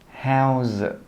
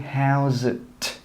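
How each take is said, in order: First: The final T is stopped, with no air released. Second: The final T is released with a puff of air. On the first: The speaker calls it right. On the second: The speaker calls it wrong. "We don't say"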